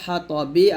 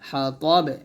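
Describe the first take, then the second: First: The word ends with a short vowel. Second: The word ends on a bounced, echoing b.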